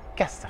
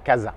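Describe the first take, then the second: First: The middle consonant is a hissing s sound. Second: The middle consonant is a buzzing z sound. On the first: The speaker calls it right. "uniquement se, pas de ze" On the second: The speaker calls it wrong. "et pas casa"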